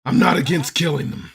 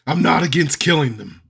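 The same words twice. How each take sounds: First: Deadpan threat. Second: A little louder, flat menace; repeated deadpan threat. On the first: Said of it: "Mercenary's gonna turn to the party". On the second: Mercenary repeating the threat to the party, louder and deadpan. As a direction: say it again for the joke. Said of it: "what did he say". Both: Acted.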